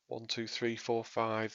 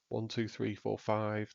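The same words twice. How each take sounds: First: The voice goes through the clarity EQ preset. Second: The voice goes through the full EQ preset. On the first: "This is the clarity preset" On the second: "This is the full sound preset"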